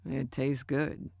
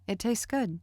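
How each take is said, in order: First: Slow, finishing a bite; chewing through the words; mouth full. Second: Short, simple reply with higher pitch; said simply. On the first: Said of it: "he said, finishing the bite". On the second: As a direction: keep it simple and plain. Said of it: "I said simply". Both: A narrator's reading.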